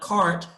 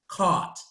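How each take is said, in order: First: The r after the vowel is pronounced. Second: The r after the vowel is dropped.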